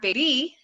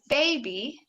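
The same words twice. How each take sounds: First: The stress is on the second syllable. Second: The stress is on the first syllable. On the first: The speaker calls it wrong. "not baby" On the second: The speaker calls it right. "our stress is on the first syllable"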